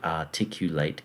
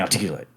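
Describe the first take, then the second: First: Every sound is pronounced crisply and distinctly. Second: The sounds are blurred and run together. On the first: "I say the word articulate carefully" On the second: "which is a different articulation of the word articulate"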